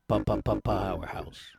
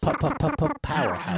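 First: It is said in a deep voice. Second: It is said in a normal voice.

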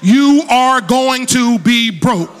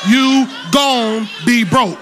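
First: The phrase is said in full as 'are going to'. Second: The phrase is reduced to 'gon' with no 'are'. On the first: The speaker calls it right. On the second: The speaker calls it wrong. "that's not proper English"

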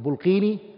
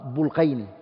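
First: The middle vowel is a long 'ee'. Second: The middle vowel is an 'ay' glide. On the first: The speaker calls it wrong. "Some people call it Bulqini" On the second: The speaker calls it right. "I think the correct way to say it is Al-Bulqayni"

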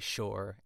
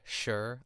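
First: It is said in a Pittsburgh accent, like shore. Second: It is said in a standard American accent.

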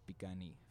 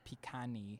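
First: It starts with softer B and G-like sounds. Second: It starts with a hard P and K sounds. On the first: "the proper pronunciation" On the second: "people will say pikani"

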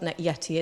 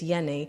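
First: The middle consonant is a T sound. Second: The middle consonant is an N sound. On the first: The speaker calls it wrong. "it's not Yeti" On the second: The speaker calls it right. "It's Yenny"

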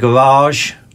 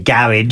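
First: Garage is said in an American accent. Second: Garage is said in a British accent.

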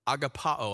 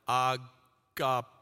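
First: It is said at normal speed. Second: It is said slowly and drawn out.

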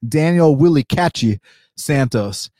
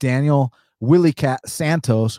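First: The name is said in a Brazilian style. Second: The name is said in plain English style.

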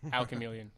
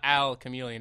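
First: It is said as one joined word. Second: It is said as two separate words. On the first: The speaker calls it right. "So it's one word" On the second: The speaker calls it wrong. "It's not al chameleon"

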